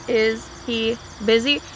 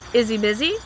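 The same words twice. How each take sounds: First: Each word is said clearly and separately. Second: The words are run together and reduced. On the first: The speaker calls it wrong. "That sounds very robotic, very strange" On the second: The speaker calls it right. "in a natural way"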